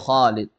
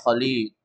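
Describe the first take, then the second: First: The first syllable has the long vowel. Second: The second syllable has the long vowel. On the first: The speaker calls it right. "yang panjang kha-nya, bukan lamnya" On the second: The speaker calls it wrong. "jangan dibaca Khalid"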